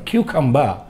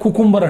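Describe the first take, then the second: First: The word begins with a 'kyoo' sound. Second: The word begins with a plain 'koo' sound. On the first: The speaker calls it right. "క్యూకంబా ... అనాలి" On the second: The speaker calls it wrong. "Spelling ప్రకారంగా చూస్తే కుకుంబర్ అంటారు చాలామంది, కానీ తప్పది"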